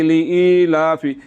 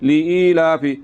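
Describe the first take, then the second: The two takes are said the same way.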